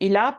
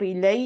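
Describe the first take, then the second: First: The word ends in a long open 'a' vowel. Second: The word ends in a soft 'ay' glide. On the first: The speaker calls it right. "इला पढ़ेंगे आप, खड़ी ज़बर पढ़नी है" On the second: The speaker calls it wrong. "इलई नहीं पढ़ेंगे"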